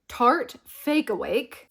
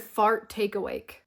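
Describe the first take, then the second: First: Tarte Fake Awake said carefully and slowly; correct brand name. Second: Fart take awake, said as a silly slip; joke mispronunciation. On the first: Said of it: "I almost said fart take awake". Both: Shown as a demonstration.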